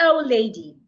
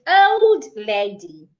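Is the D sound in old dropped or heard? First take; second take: dropped; heard. First: The D sound in old is dropped. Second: The D sound in old is clearly heard. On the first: The speaker calls it wrong. "It's not" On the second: The speaker calls it right.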